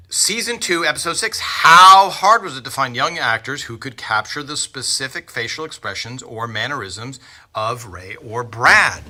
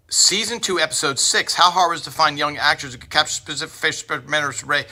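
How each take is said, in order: First: Said in the usual way. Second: Fast, high auctioneer patter. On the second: Retold or imitated. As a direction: rattle it off like an auctioneer calling bids. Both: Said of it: "that was me doing a, uh, impression of an auctioneer".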